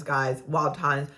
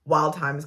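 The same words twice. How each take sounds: First: Drawn-out echo. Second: Slow, weighty wild times; slow emphasis. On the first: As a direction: let wild times trail off slowly. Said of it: "I go, wild times". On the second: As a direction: lean into wild times, slowly. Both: Shown as a demonstration.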